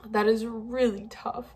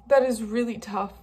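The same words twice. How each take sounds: First: Same words but choked and crying; tearful repeat. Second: Said in the usual way. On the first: Real, not acted. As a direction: let the repeat crack with tears.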